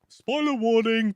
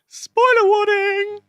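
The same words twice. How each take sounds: First: It is said in a normal speaking voice. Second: It is said in a put-on, higher voice.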